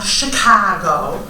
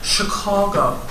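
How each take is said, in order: First: The middle vowel does not sound like 'aw'. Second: The middle vowel sounds like 'aw' in awesome. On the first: The speaker is not a native of the city. The speaker calls it wrong. "Not Chicago" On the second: The speaker is a native of the city. The speaker calls it right. "The soft C and the awesome A"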